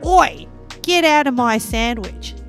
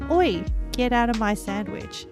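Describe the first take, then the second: First: It is said in a strong Australian accent. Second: It is said in a plain, normal speaking voice. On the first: "That's the Australian" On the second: "just my normal talking voice"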